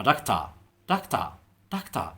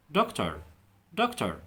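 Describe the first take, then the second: First: Doctor in a British accent, ending dokta with no r. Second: Doctor in an American accent, ending with a clear r. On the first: Teacher shows learners British doctor. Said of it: "تبع البريتش برضه هينطقها ازاي؟". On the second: Teacher shows learners American doctor. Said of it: "في الامريكان هينطقها دكتور". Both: Shown as a demonstration.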